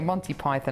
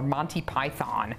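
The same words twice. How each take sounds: First: It is said with a British pronunciation. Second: It is said with an American pronunciation.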